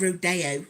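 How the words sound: It is said with a British pronunciation. "me from the U K, I was calling it rodeo"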